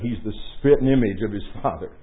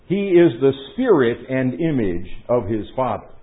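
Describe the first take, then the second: First: The words are said fast and run together. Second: The words are said clearly and fully separated.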